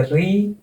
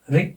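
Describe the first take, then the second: First: री with the vowel held long. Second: री cut to a short vowel. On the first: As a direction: stretch the ee in री. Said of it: "ये री हो जाएगा और ये". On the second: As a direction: say री briefly, without accent. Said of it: "छोटा री है ना". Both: Shown as a demonstration.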